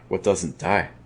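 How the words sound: The stress is on die.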